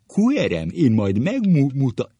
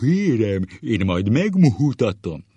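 First: Higher, loud schoolmaster threat; high hammed-up teacher shout; corrected teacher impression. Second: High, loud, booming threat; hammed-up teacher shout; muddled teacher impression. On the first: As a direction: demonstrate it emphatically, with swollen vowels. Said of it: "így mondta". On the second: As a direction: bellow it, mixing two schoolmasters' voices. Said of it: "Összezavarja a sárgaság és falkaparó hangot".

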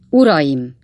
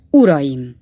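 First: Loud call for attention; as loud as his throat allows; mayor booming Uraim at the crowd; booming address. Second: Loud call to the crowd; mayor hailing the voters loudly; booming address. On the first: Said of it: "olyan harsány hangon, ahogy csak a torkán kifért". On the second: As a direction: bellow Uraim to open the speech. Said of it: "olyan harsány hangon". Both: A narrator's reading.

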